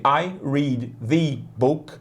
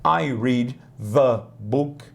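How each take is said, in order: First: "the" said as "vi", slowly; slow "I read the book" with a "v" for the "th"; v-sound the. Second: "the" said as "va", slowly; slow careful "I read the book", "the" like "va"; other th variant. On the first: Teacher showing students an accent variant of "the". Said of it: "se alguém disser pra você". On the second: Teacher giving students a second accent variant. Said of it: "você vai entender". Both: Shown as a demonstration.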